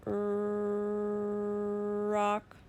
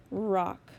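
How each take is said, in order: First: Teacher to class, stretching "Er, rock" into sounds; sounded out slowly. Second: "Rock" blended quick and loud; said fast. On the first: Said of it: "My turn". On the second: Teacher to class, blending "Rock" fast and firm. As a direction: snap the sounds together into "Rock". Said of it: "Now say it fast". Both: Shown as a demonstration.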